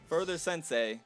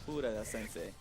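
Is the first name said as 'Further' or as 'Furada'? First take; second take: Further; Furada. First: The name is said the usual English way. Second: The name is said with an extra vowel, 'Furada'. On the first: "It's gonna be Further Sensei" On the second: "you gotta say it Furada Sensei"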